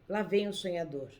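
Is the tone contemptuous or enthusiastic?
contemptuous. It is said with a scornful, contemptuous tone. The person is mocked as an idle dreamer. "havia desprezo"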